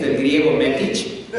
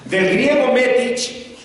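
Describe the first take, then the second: First: Said in the usual way. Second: "Del griego metich" raised and slowed, like a learned citation; mock-scholarly emphasis. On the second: Shown as a demonstration. Preacher hamming up a fake Greek root, slow and grand. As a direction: pronounce "metich" slowly and grandly as if quoting Greek. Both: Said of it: "el mismo mensaje debe ser con griego y hebreo".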